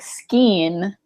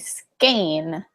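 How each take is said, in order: First: The vowel sounds like 'ee'. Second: The vowel sounds like 'ay'. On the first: "If it was E E, like skeen, to me sounds like E E" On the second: "that's why I say skein"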